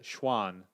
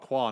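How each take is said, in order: First: The name begins with a soft SH sound. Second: The name begins with a hard K sound. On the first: The speaker calls it right. "So is the Q a C H sound?" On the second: The speaker calls it wrong. "It's not Kwan, is it?"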